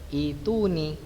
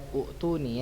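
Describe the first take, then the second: First: The word begins with a plain 'i' sound. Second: The word begins with a 'u' and a catch. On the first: The speaker calls it right. "tapi harusnya dibaca ituni" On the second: The speaker calls it wrong. "kalau kita secara zahiriyahnya lihat u'tuni"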